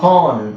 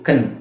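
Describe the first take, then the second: First: The syllable has a long 'ah' vowel. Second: The syllable has a short 'uh' vowel. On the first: The speaker calls it wrong. "So ಕಾನ್ ಅಲ್ಲ" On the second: The speaker calls it right. "ಇದು ಕನ್"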